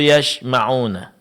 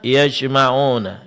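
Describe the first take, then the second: First: The middle consonant is an 'sh' sound. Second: The middle consonant is a 'j' sound. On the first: The speaker calls it wrong. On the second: The speaker calls it right.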